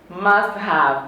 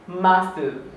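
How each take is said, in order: First: Have is said in full with its h. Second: Have is shortened to a weak schwa sound.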